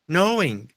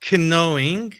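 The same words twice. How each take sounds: First: The initial K is not pronounced. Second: The initial K is pronounced aloud. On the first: The speaker calls it right. "esse K não existe ... O K aqui, ele morre" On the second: The speaker calls it wrong. "Não é knowing"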